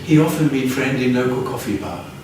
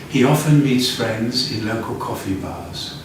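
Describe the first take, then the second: First: The final consonant sounds are left off. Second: The final consonant sounds are clearly pronounced. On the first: The speaker calls it wrong. "Otherwise, it's" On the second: The speaker calls it right. "Again, the final sound"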